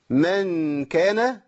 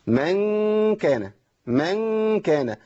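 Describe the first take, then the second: First: من كان slowly, noon hidden in a nasal hum; ikhfa demo. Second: من كان said slowly, noon merged into a drawn-out nasal; wrong idgham demo. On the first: Teacher demonstrating correct ikhfa before kaf. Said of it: "يعني عايز مثلًا أقول إيه؟". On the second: Teacher showing students the wrong way. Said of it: "طب أنا قلت كده بشكل خطأ". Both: Shown as a demonstration.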